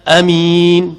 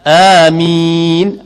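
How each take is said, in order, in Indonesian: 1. Vokal pertama dibaca pendek. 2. Vokal pertama dibaca panjang. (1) "amin bil qasri tanpa mat" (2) "dengan kadar dua harakat pada a"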